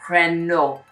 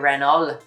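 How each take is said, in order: First: Neither an L nor a T is pronounced. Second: An L sound is pronounced in the word. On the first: "in the French way of saying it, the L and the T are silent" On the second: "you pronounce the L really"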